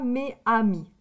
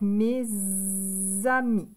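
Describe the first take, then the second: First: The final s is silent, with no link. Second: A z sound links the two words. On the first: The speaker calls it wrong. "On ne dit pas mes amis. C'est pas joli" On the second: The speaker calls it right. "on va faire la liaison"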